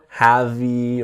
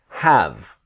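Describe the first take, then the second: First: An extra vowel sound follows the V. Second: No vowel sound follows the V. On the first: The speaker calls it wrong. "Never have-y or anything like this" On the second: The speaker calls it right. "The E is silent"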